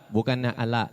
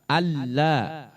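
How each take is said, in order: First: The middle l sound is short and light. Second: The middle l sound is held long and pressed. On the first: The speaker calls it wrong. "Bukannya ala, bala, bukan" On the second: The speaker calls it right. "Tapi ditekan"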